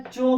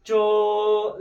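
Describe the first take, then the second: First: Said in the usual way. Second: चो held long into a final o; drawn-out vowel. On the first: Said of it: "चो बोल रहे हैं". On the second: Shown as a demonstration. Teacher asking what sound comes last, चो drawn out. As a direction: stretch चो until only ओ is left. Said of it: "last में आपका क्या आ जा रहा है".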